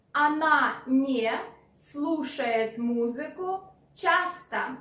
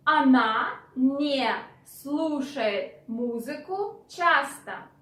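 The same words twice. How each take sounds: The two takes are said the same way.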